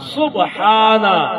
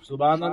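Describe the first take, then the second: First: It is said with an h sound in the middle. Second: It is said without an h sound in the middle. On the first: The speaker calls it right. "सुबहाना सुबहाना" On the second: The speaker calls it wrong. "सुबाना नहीं"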